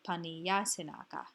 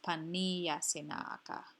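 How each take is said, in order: First: The stress falls on the syllable ya. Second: The stress falls on the syllables ni and na. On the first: The speaker calls it wrong. "I would have put the emphasis on the ya" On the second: The speaker calls it right. "but it's paniyasinaka"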